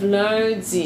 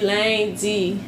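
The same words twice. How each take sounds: First: The first vowel is a rounded nasal 'un' sound. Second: The first vowel is an unrounded nasal 'in' sound. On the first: "Instead of lundi" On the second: "They say lundi"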